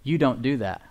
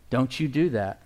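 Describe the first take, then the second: First: "You don't do that" with the weight on "You", said kindly; grace's gentle "you don't do that"; stress on YOU. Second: "Don't you do that" with the weight on "do", a stern finger-wag; the law's stern "don't you do that"; stress on DO. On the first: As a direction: remind him who he is, leaning on "You". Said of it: "Grace says". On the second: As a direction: scold it, hitting "do". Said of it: "One is the law and one is grace". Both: Shown as a demonstration.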